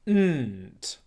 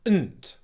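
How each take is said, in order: First: The N sound is held long through the nose. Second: The N sound is short before the T. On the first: The speaker calls it wrong. "he was prolonging the sound through his nose, so it was sounding like this" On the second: The speaker calls it right. "We want it to be like this"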